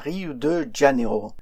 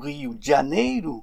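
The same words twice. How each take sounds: First: It is said with French sounds and stress. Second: It is said with Portuguese sounds and stress. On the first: The speaker calls it wrong. "mais non pas" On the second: The speaker calls it right. "Pour le prononcer correctement, il faudrait dire"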